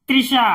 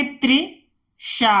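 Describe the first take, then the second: First: Said in the usual way. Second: "Trisha" split in two with a pause; syllable by syllable. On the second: Shown as a demonstration. ("Trisha" को तोड़कर पढ़ना) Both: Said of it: "तो इसे हम पढ़ेंगे".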